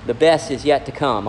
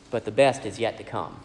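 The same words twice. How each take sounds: First: Said in the usual way. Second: "best" said softly and lower, falling; hushed, lower restatement of "the best is yet to come"; soft, low repeat. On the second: Shown as a demonstration. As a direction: let the repeat drop softer and lower on "best".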